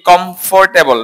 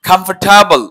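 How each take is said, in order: First: কমফোর্টেবল as "kom-FOR-te-bol", round o; common mispronunciation. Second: কমফোর্টেবল as "KAM-far-ta-bol", open a; correct pronunciation. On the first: Teacher shows what people wrongly say, mispronounced. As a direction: spell out every syllable of কমফোর্টেবল with a full "for". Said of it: "not কমফোর্টেবল". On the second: Teacher gives students the fix, corrected pronunciation. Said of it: "এটা হচ্ছে". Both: Shown as a demonstration.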